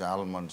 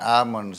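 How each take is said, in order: First: The L sound is clearly pronounced. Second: The L sound is not pronounced.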